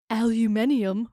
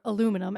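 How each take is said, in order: First: The word is said a non-American way. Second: The word is said the American way.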